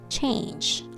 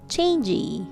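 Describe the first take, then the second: First: The word is said as one syllable. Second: The word has an added vowel, making two syllables. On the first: The speaker calls it right. "Just one syllable. One sound" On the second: The speaker calls it wrong. "Not changey. Changey becomes two syllable"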